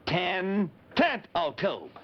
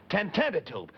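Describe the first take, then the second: First: Ten tent o' tube drawn out, every syllable apart; said slowly. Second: Said fast. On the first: Spelling the name out for the kids, slowly. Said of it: "listen to it slowly". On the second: Showing the kids the fast way, quick. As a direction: run the name together quickly. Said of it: "we've been saying it fast like this". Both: Shown as a demonstration.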